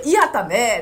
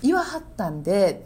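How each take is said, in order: First: Louder Osaka-style honorific; Osaka dialect. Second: Lightly demonstrated Kyoto honorific; gentle Kyoto-dialect phrasing; soft Kyoto dialect. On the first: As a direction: demonstrate firmer Osaka-dialect phrasing. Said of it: "言いはるって言うんですよ". (強めの大阪弁で) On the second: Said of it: "なんかこう柔らかい". (柔らかい京都弁で) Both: Shown as a demonstration.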